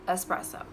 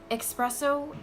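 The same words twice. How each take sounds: First: The word begins with an 'ess' sound. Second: The word begins with an 'ex' sound. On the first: The speaker calls it right. "It's espresso with an S, not an X" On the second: The speaker calls it wrong. "Espresso is not a thing"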